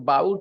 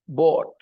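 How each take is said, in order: First: The vowel glides like the vowel in 'out'. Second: The vowel is a plain open sound like 'saw'. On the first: The speaker calls it wrong. "जो बाउट बोलते हैं ना उसमें बाऊ ले आते हैं ना" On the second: The speaker calls it right. "it is bought"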